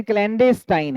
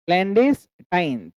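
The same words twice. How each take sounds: First: Said in the usual way. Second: "clandestine" slow, paused between "clandes" and "tine"; broken into syllables. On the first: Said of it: "clandestine अगर हम पढ़ रहे हैं". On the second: Shown as a demonstration. Teacher shows where the word breaks, slow syllable split. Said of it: "एक syllable ये हो गया".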